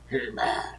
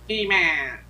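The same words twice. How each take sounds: First: It is said in a scary, menacing voice. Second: It is said in a high, nasal voice.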